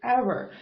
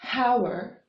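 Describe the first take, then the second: First: The word begins directly with a vowel sound. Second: The word begins with an audible h sound. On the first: The speaker calls it right. "we say it hour" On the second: The speaker calls it wrong. "We don't say hour"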